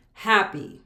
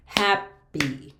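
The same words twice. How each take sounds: First: Said in the usual way. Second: "happy" in two beats, hap-py; clapped-out syllables. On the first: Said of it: "That has two syllables". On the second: Shown as a demonstration. Teacher clapping out a word, syllable by syllable. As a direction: clear gap between "hap" and "py". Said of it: "We can clap out".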